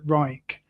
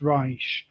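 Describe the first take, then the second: First: The name is said with an English pronunciation. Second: The name is said with a German pronunciation. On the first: "the English tend to pronounce it Reich" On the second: "if you pronounce it in the German way"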